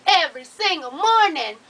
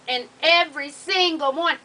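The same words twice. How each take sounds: First: "Every single morning" louder and punched; all caps loud. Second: "every single morning" stressed; all caps emphasis. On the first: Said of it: "When I get real loud like that". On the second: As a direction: lean on "every" hard. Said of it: "when I say that, that means it's all in caps". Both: Shown as a demonstration.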